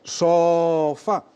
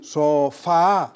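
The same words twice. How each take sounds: First: "sofa" with a long SOOO, then fa; stretched wrong vowel. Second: "sofá" with a long FAAA; stretched final vowel. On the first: Host testing a trick to find stress, long O. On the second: Host testing a trick to find stress, long A. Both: Shown as a demonstration. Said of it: "valdría repetir, por ejemplo la vocal".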